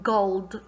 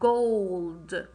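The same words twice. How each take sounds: First: The vowel is a short O sound. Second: The vowel is a long O sound. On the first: The speaker calls it wrong. "I'm not pronouncing the short sound. I'm not saying gold" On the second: The speaker calls it right. "I'm saying the long O sound"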